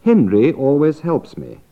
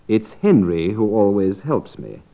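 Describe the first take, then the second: First: Said in the usual way. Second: "Henry" given the main fall; stress on Henry. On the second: Shown as a demonstration. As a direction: point out "Henry" as the one. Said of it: "whichever one you want to stress".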